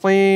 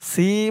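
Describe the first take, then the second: First: The s is a heavy, emphatic s sound. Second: The s is a plain, light s sound. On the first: The speaker calls it right. "বলতে হবে সি" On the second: The speaker calls it wrong. "সি বলা যাবে না সি বললে এই সদের জায়গায় সিনের উচ্চারণ হয়ে যাবে"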